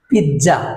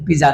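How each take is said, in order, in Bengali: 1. মাঝের ধ্বনিটি ts। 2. মাঝের ধ্বনিটি সাধারণ z। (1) "সঠিক উচ্চারণ হবে পিৎজা" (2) "পিজা নয়"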